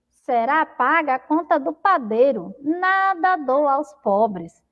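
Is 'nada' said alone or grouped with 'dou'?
grouped. "Nada dou aos pobres" is said as one phrase.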